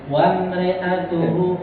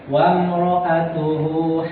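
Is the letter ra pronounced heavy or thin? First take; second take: thin; heavy. First: The ra sound is thin and light. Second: The ra sound is heavy and full.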